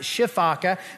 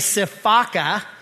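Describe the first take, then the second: First: The word begins with an sh sound. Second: The word begins with an s sound. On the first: "or some people pronounce it shifaka" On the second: "A sifaka"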